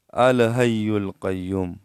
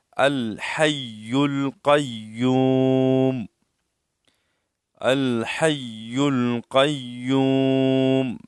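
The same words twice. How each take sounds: First: الحی القیوم with a weak ha and a thin qaf; الحی القیوم read sloppily, the usual mistake; common wrong reading. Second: Slow chant with a heavy qaf in القیوم; correct recitation. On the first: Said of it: "اکثر لوگ کس طرح پڑھتے ہیں". (غلط تلفظ میں الحی القیوم) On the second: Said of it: "اس طرح". (صحیح تجوید سے الحی القیوم) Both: Shown as a demonstration.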